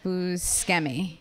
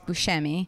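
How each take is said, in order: First: The name is said a non-Italian way. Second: The name is said the Italian way. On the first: This is how the name's bearer says it. "but I think he pronounces it Buscemi" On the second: This is the traditional form of the name. "I think that's the Italian way to say it is Buscemi"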